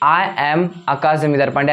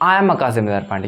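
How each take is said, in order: First: 'I' and 'am' are said as separate words. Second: 'I' and 'am' are said joined together. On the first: The speaker calls it wrong. "आप इसको आई और एम मत पढ़िएगा, ऐसे मत बोलना, थोड़ा ऑकवर्ड सा लगता है" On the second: The speaker calls it right. "आपको बोला आई एम"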